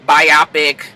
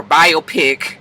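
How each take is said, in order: First: Biopic said "bye-OP-ic"; alternative pronunciation. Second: Biopic said slowly as "BY-oh-pick"; alternative pronunciation. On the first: Vlogger trying one way to say the word, biopic as "bye-OP-ic". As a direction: rhyme the end of biopic with "topic". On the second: Vlogger offering the other way to say the word, biopic as "BY-oh-pick". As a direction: split biopic into bio and pick. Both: Shown as a demonstration.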